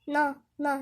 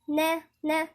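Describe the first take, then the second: First: The n sound is heavy and thick. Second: The n sound is light and thin. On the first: The speaker calls it wrong. "في ناس تنطقها نا نا، ... فاحنا بنفخم النون، ده غلط" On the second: The speaker calls it right. "نرقق"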